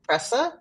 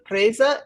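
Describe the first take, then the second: First: The middle consonant is a hissing s sound. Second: The middle consonant is a buzzing z sound. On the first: The speaker calls it wrong. "not presa" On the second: The speaker calls it right.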